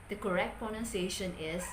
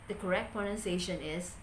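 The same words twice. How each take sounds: The two takes are said the same way.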